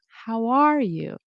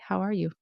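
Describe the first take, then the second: First: The vowels are long and wavy. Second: The vowels are clipped short and flat. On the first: The speaker calls it right. "letting those vowels really shine" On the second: The speaker calls it wrong. "instead of saying like"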